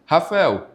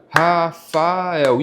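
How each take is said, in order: First: Said in the usual way. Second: "Rafael" drawn out as Ra, fa, el; syllable by syllable. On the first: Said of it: "Aí o aluno vai lá". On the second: Shown as a demonstration. Pupil practising syllable separation in class, "Rafael" said slowly in three parts. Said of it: "ter essa separação de sílabas".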